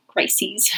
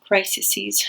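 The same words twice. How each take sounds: First: Crises said as "cry-seez"; two-syllable plural. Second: Crises said as "cry-suh-seez"; extra-syllable plural. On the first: Correcting her own word to viewers, crises as "cry-seez". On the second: Unsure of the plural of health crisis, crises stretched to "cry-suh-seez". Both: Real, not acted. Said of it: "How do you say that word?".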